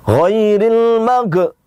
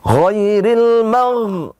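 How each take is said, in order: First: The final consonant is released with a bounce. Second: The final consonant is held without a bounce. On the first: The speaker calls it wrong. "Itu berarti mantul" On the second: The speaker calls it right. "Yang benar ghairil ditahan namun tidak memantul"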